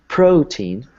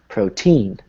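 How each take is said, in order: First: The stress is on the first syllable. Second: The stress is on the second syllable. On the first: The speaker calls it right. "you can either stress the first syllable or the second syllable" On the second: The speaker calls it wrong. "or you could say protein"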